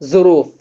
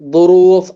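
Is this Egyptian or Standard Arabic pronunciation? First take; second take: Egyptian; Standard. First: It begins with a z sound, Egyptian style. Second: It begins with the emphatic standard dh-like sound. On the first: "அவங்க எப்படி ப்ரொனவுன்ஸ் பண்ணுவாங்கன்னா ஜாவை" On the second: "standard அரபிக்ல துரூஃப்"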